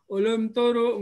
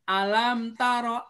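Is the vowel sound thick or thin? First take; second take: thick; thin. First: The vowel is thick and rounded. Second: The vowel is thin and open. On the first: The speaker calls it wrong. "tidak boleh tebal ya ... Alam taro nggak boleh" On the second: The speaker calls it right. "tapi alam taro a ya"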